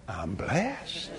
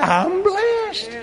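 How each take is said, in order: First: Low, soft and calm; quiet statement. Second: High, laughing exclamation of blessing; joyful exclamation. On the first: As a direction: say it softly to yourself. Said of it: "I am grateful. Why?". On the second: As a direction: burst out with delight. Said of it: "That's exactly right". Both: Shown as a demonstration.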